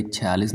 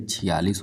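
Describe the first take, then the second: First: छियालीस as "chhe-yaalis"; wrong "chhe" form. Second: छियालीस as "chhi-yaalis"; correct "chhi" form. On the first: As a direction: start छियालीस with an e sound. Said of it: "नहीं". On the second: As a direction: start छियालीस with a short i, lower pitch. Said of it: "होता है". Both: Shown as a demonstration.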